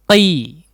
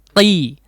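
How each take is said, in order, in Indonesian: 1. Vokalnya langsung ke bunyi i yang jelas. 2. Vokalnya langsung ke bunyi i yang jelas.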